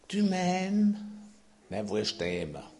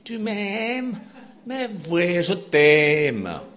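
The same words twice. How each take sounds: First: It is said in the speaker's plain accent. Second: It is said in a put-on Swiss accent.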